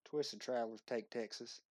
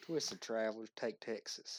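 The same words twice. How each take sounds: First: Hint of a Texas accent; Southern accent. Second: Slower Southern drawl, leaning into it; stretched-out Texas twang; Southern accent. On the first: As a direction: try a Southern accent on the title. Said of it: "I want your best Southern accent". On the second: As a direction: say it like a proud Texan, slowly. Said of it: "Do it one more time". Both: Shown as a demonstration.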